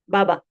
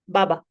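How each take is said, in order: No difference in how they are said.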